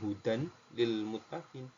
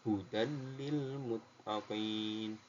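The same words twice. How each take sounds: First: The n is pronounced separately before the l. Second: The n merges directly into the l without nasalization. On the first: The speaker calls it wrong. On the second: The speaker calls it right. "Sama ini juga"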